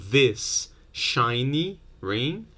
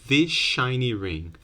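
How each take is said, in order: First: 'This' ends with a plain s sound. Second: 'This' ends with an sh sound.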